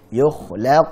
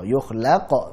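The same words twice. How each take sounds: First: The q ends with a light, small bounce. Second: The q ends with a strong echoing bounce. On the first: The speaker calls it right. "Yukhlaq qalqalah sughra" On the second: The speaker calls it wrong.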